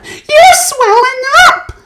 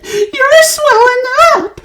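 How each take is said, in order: First: High, loud slow scream. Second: High, loud slow scream; screamed again. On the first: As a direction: shriek in horror. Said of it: "screamed Missus Beauregard". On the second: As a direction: scream it once more, panicked. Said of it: "screamed Missus Beauregard again". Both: A narrator's reading.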